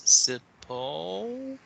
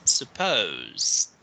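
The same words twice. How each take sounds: First: Teacher shows stress on po. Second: Supposed, po stressed, quick z d; teacher repeats the stressed po. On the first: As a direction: hit po hard in supposed, soften z d. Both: Shown as a demonstration. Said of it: "you need to say like this".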